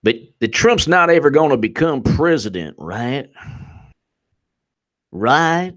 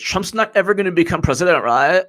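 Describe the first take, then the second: First: Southern congressman. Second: Put-on higher-pitched Valley girl with rising "right?". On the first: Acted. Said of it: "one of the Southern congressmen's like". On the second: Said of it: "she turned into a Valley girl".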